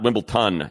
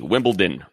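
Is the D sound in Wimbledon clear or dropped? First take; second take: dropped; clear. First: The D sound is dropped. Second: The D sound is clearly pronounced. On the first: The speaker calls it wrong. "not Wimbledon. You American" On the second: The speaker calls it right. "it's Wimbledon with a D"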